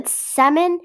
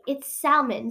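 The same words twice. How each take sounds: First: "salmon" as "sammon", pitched up and loud; silent-L salmon. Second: "salmon" as "sal-mon"; L sounded in salmon. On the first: Quoting opponents, "salmon" as "sammon". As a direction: drop the L from "salmon". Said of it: "if anyone tells you". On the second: Defying anyone who objects, "salmon" with a clear L. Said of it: "I'm gonna keep saying it". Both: Shown as a demonstration.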